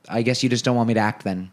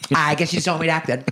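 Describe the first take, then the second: First: It is said in a mild, realistic way. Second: It is said in an exaggerated, emotional way.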